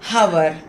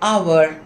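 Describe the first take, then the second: First: The word begins with an audible h sound. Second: The word begins with a vowel, no h sound. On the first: The speaker calls it wrong. "హవర్ అని చెప్పకూడదు" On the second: The speaker calls it right. "అవర్ అనాలి"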